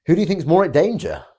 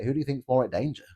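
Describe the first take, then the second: First: Louder and higher, with the word you pushed hard; emphatic repeat. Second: Said in the usual way. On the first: Shown as a demonstration. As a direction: hammer the question home and lean on you.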